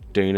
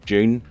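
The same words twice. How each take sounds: First: It is said with an American accent. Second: It is said with a British accent.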